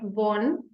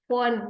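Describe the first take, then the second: First: The word begins with a V sound. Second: The word begins with an F sound. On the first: The speaker calls it wrong. "not von" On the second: The speaker calls it right. "like the electronics company phone"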